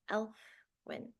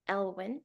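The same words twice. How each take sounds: First: "Elfwyn" with an F after the L; "Elfwyn" starting like the word elf; name with F. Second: "Elwyn" said with no F sound; "Elwyn" with a plain L-W middle; name without F. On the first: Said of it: "Elfwyn, sorry". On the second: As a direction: say "Elwyn" as EL-win, L straight into W. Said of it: "My grandfather's name". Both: Shown as a demonstration.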